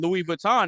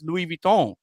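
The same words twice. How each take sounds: First: It uses the common everyday pronunciation. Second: It uses the original pronunciation. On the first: The speaker calls it wrong. "we all know what Louis Vuitton is" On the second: The speaker calls it right. "they don't know that it's Louis Vuitton"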